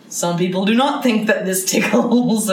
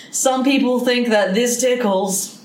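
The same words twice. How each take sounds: First: "not" punched, falling on "not"; stress on NOT. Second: "think" stressed and slowed, people prominent; slowly, weighting "people" and "think". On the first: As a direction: lean hard on "do not". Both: Shown as a demonstration. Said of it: "It's really up in the air".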